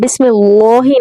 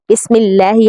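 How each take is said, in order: First: The L in the middle sounds full and heavy. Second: The L in the middle sounds thin and light. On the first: The speaker calls it wrong. "हम बिस्मिल्लाही नहीं पढ़ते" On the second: The speaker calls it right. "यानी लाम को बारीक पढ़ते हैं"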